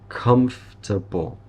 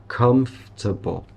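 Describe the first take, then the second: Both takes have the same delivery.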